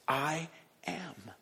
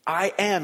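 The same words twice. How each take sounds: First: A breathy hushed "I am"; whispered I am. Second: "I am" said firmly and louder; stressed I am. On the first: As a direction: breathe "I am" almost silently. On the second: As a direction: land "I am" with weight. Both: Shown as a demonstration. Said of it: "at the beginning of his phrase".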